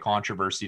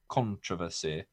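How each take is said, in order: First: The word is said the ordinary American way. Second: The word is said the British way.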